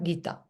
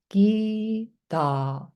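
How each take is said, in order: First: Both vowels are clipped short. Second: Both vowels are held long. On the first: The speaker calls it wrong. "not Gita" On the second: The speaker calls it right. "E is long, A is long"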